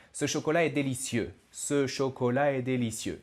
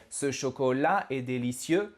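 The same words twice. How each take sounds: First: Ce chocolat est délicieux in one level run, dropping at the end; no stress inside, let délicieux fall; flat, falling end. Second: Ce chocolat est délicieux with a bump on LAT and CIEUX; every word-final syllable stressed. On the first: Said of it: "the snake has its head down". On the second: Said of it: "stressed the last syllable of every word". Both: Shown as a demonstration.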